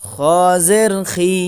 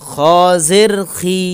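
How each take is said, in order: Both takes have the same delivery.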